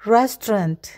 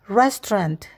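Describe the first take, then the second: The two takes are said the same way.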